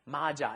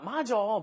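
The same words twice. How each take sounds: First: It uses the standard careful pronunciation. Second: It uses the casual everyday pronunciation. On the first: The speaker calls it right. "actually it's supposed to be" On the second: The speaker calls it wrong. "a very common way to pronounce that ... that's actually improper"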